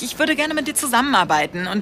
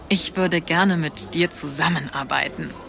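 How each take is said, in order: First: It is said fast. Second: It is said slowly.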